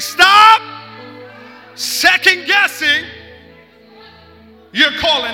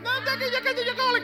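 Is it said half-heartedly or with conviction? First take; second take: conviction; half-heartedly. First: It is said forcefully, with conviction. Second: It is said weakly, without conviction.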